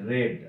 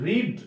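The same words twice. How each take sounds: First: "রেড" said with a short e vowel; pronunciation of past read. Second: "রিড" said with a long ee vowel; pronunciation of present read. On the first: Teacher showing students the past form, "রেড" said with an e sound. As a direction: say "রেড" with e, like the colour red. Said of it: "আর এটার উচ্চারণ হচ্ছে রেড". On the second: Teacher showing students the present form, "রিড" said with an ee sound. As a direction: say "রিড" with ee, as in reed. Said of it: "এটার উচ্চারণটা হচ্ছে রিড". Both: Shown as a demonstration.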